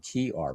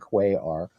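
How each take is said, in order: First: The first word sounds like 'key'. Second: The first word sounds like 'kway'. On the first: The speaker calls it right. "that's how you pronounce it" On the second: The speaker calls it wrong. "he would say"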